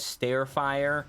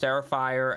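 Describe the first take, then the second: First: The first part sounds like 'stare'. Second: The first part sounds like 'star'. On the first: The speaker calls it wrong. "I also pronounce Starfire as Starefire" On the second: The speaker calls it right. "I also pronounce Starfire as Starefire"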